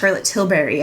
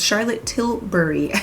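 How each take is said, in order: First: The name is run together in one flowing sweep. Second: The name is said carefully with distinct sounds. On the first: The speaker calls it wrong. "I don't mean to say it like that. It kind of just flows like that" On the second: The speaker calls it right. "but it's"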